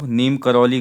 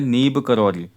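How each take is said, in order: First: The first word ends with an m sound. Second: The first word ends with a b sound. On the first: The speaker calls it wrong. "नीम करौली गलत है" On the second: The speaker calls it right. "बाबा नीब करौली होता है"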